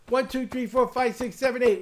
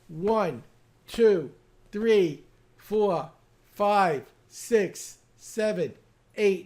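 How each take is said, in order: First: The count is as fast as possible. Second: The count is at a normal, steady pace.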